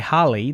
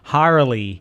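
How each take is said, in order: First: The name is said in a New Zealand accent. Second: The name is said in an American accent. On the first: Listeners mishear the name as a different one. "if I say Harley" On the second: Listeners understand the name correctly. "I had to do it in an American accent"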